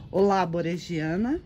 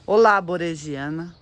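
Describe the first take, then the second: First: Said in the usual way. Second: Louder, rising hello; louder greeting. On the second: Acted. Vlogger calls hello to her orchid, louder. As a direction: call out a cheerful hello.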